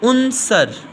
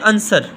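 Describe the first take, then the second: First: The first vowel is a 'u' sound. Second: The first vowel is an 'a' sound. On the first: The speaker calls it right. "उनसर के ऊपर पेश है" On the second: The speaker calls it wrong. "हम इसको बड़े आराम से पढ़ देते हैं अनसर"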